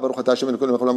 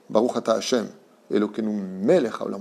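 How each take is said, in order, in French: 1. Les mots s'enchaînent vite, sans pause. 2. Il y a une pause volontaire après Hashem. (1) "On ne dit pas" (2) "on s'arrête"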